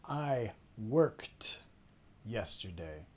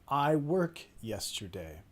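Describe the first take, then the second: First: The verb ends with a clear t sound. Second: The verb ends without any final t sound. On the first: It clearly marks the past tense. The speaker calls it right. "que en este caso suena como una T" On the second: It sounds like the present tense. The speaker calls it wrong. "así suena a nosotros cuando no pronuncian eh, el ed al final"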